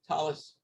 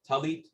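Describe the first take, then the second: First: It is said in Ashkenazi Hebrew pronunciation. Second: It is said in Sephardic Hebrew pronunciation.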